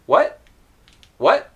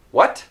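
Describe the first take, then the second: First: Rising "What" with the final t held back; natural "What" with a silent stopped t; unreleased T. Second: "What" with the final t clearly released; careful "What" with an audible final t. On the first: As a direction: end "What" with the tongue up, letting no air out. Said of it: "without the T being released". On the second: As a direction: puff out the t that ends "What". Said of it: "then I probably wouldn't say". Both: Shown as a demonstration.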